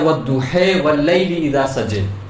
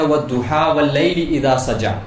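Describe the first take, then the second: First: It is recited in another regional reading style. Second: It is recited in the commonly used reading style. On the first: This is one of the other accepted readings. "एक लहजा है" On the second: This is how it is usually read. "जैसे हम पढ़ते हैं"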